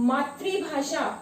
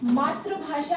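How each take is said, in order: First: The second syllable has a 'ri' sound. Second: The second syllable lacks a 'ri' sound. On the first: The speaker calls it right. "जब हम इसका उच्चारण री की तरह करते हैं" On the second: The speaker calls it wrong. "बहुत सारे बच्चे इसे मातृभाषा कहते हैं"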